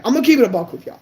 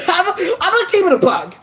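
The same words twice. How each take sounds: First: Said in the usual way. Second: Higher, laughing through the words; sheepish laugh while admitting it. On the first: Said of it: "I'm shy as shit in real life". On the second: Real, not acted. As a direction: giggle out the confession. Laughs at own shyness confession.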